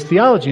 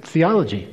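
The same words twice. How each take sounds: First: Higher, louder disbelieving repeat; shocked echo of his answer; incredulous echo. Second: Said in the usual way. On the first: Retold or imitated. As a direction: repeat the word as if it can't be real. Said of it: "And he goes". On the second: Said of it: "I said".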